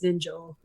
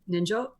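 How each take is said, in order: First: The final o vowel is held long. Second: The final o vowel is short. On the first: "because there's an extension" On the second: "if there wasn't one over the O here, it would be"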